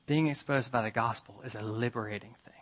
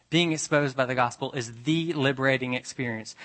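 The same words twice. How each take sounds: First: Soft whispered statement; hushed. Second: Said in the usual way. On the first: Shown as a demonstration. Preacher whispering the point to the congregation, hushed. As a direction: whisper it like a secret. Whispered contrast before restatement.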